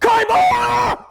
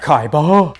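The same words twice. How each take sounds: First: It is said forcefully, with lots of energy. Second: It is said weakly, with little energy.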